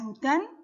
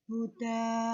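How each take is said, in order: First: The word ends with an n sound. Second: The word ends with a long a vowel. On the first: The speaker calls it wrong. "Tidak dibaca hudan" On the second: The speaker calls it right. "tapi dibaca huda"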